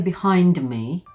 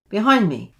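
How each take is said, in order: First: The D is fully released before 'me'. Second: The D is stopped, not released. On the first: The speaker calls it wrong. "You wouldn't say behind me because it's not a very smooth transition" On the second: The speaker calls it right. "So we have a stop D"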